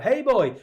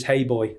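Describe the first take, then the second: First: Put-on high called-out hey boy, pitched way up; calling out hey boy across the room; Manx shout. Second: Said in the usual way. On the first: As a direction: shout for someone whose name you forgot. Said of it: "just shout". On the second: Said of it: "That's a big shout".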